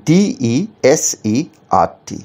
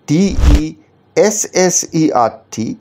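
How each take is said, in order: First: Letters spelled out very slowly one by one; slow spelling out. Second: ডিইএসএসইআরটি spelled very slowly and a bit higher, the added S drawn out; slow spelling with double S. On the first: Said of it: "সঠিক বানানটা হচ্ছে option A". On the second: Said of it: "যদি আরেকটা S যোগ করে দেওয়া হয়". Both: Shown as a demonstration.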